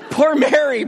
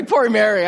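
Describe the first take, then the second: First: High, laughing pity; laughing sympathy. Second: Said in the usual way. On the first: Real, not acted. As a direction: laugh it out much higher in amused sympathy.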